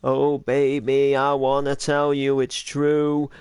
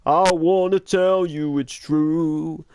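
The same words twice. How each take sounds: First: Slow crooned line in a light character voice; Steve Wood's voice. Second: Slow sung line. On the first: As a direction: croon it slowly as Steve Wood. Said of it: "I practically do Steve Wood's voice and go". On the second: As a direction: sing it out slowly like a ballad. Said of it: "I don't sing the". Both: Shown as a demonstration.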